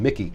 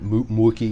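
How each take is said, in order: First: The first vowel sounds like 'ih'. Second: The first vowel sounds like 'oo'. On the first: The speaker calls it right. "and Mickey" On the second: The speaker calls it wrong. "which somebody say Mookie or something"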